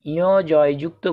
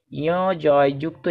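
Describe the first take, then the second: No difference in how they are said.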